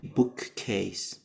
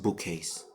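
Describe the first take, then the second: First: Every sound in the word is fully pronounced. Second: Sounds in the word are reduced and linked. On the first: "The original would be" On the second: "in the reduction, you can see listen"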